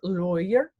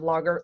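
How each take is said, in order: First: The first vowel is an 'oi' sound. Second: The first vowel is not an 'oi' sound. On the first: The speaker calls it right. "A U makes an oi sound" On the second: The speaker calls it wrong. "instead of"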